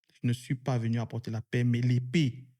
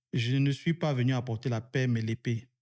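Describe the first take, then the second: The two takes are said the same way.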